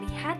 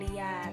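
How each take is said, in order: First: An h sound is heard between the vowels. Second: No h sound is heard between the vowels. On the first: The speaker calls it right. "yang harusnya lihat" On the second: The speaker calls it wrong. "jadi liat"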